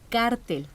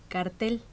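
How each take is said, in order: First: The stress is on the first syllable. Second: The stress is on the second syllable. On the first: The speaker calls it right. "se dice cártel" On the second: The speaker calls it wrong. "No se dice cartel"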